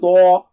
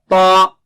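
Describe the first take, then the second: First: The lips round, adding a w-like glide. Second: The lips stay unrounded; thickness is inside. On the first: The speaker calls it wrong. "Don't say twa" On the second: The speaker calls it right. "ta, ta. All the changes are inside only"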